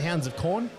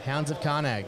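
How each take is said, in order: First: The last word has one syllable, ending in n. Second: The last word has two syllables, ending in g. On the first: The speaker calls it right. "he meant Hounds of Corn" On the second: The speaker calls it wrong. "A guy came in once asking for Karnag"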